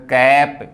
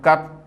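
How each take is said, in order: First: कैप with an open ae vowel as in cap. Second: कप with a short a as in cup; short a vowel. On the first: Teacher contrasting cap for students, open ae. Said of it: "ये लगा के बोलेंगे तो कैप". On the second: Teacher contrasting cup for students, short a. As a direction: say कप with the plain short a. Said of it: "ये लगा के बोलेंगे तो कप". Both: Shown as a demonstration.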